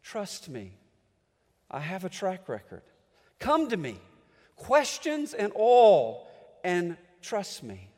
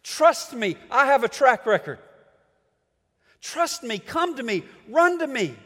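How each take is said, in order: First: Tender voice of God. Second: Raised, firm, pleading call; preacher voicing God loudly. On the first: Acted. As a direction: gently draw them in. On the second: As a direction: call the people home with urgency. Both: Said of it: "God keeps telling us".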